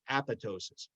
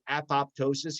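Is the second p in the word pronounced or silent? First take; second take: silent; pronounced. First: The second p sound is silent. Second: The second p sound is pronounced. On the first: The speaker calls it right. "The second P is silent" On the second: The speaker calls it wrong. "if you talk to a doctor that says apoptosis, he doesn't know what he's talking about"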